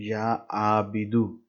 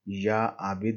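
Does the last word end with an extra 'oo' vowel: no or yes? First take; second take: yes; no. First: The last word ends with a final 'oo' vowel. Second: The last word ends without a final vowel. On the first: The speaker calls it right. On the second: The speaker calls it wrong.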